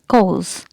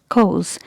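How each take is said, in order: First: The R and P sounds are silent. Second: The R and P sounds are silent.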